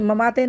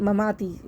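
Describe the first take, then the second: First: The final vowel is a mid 'ay' sound. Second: The final vowel is a long 'ee' sound. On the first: The speaker calls it wrong. "ये ममाते नहीं है" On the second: The speaker calls it right. "बिल्कुल मारूफ पढ़ने की कोशिश करें"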